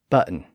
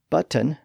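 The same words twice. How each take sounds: First: The T in the middle is not clearly pronounced. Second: The T in the middle is clearly pronounced. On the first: "especially common in American English" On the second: "the T was routinely pronounced in words like that"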